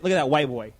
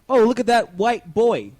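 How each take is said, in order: First: It sounds hostile and contemptuous. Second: It sounds friendly and harmless.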